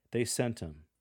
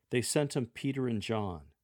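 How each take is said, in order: First: "They sent him" said as sent 'em, h dropped; relaxed "him" blended into "sent"; casual dropped h. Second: Said in the usual way. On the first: Shown as a demonstration. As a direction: lector showing an informal conversational read. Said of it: "drop the T H from your pronunciation". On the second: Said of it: "drop the T H".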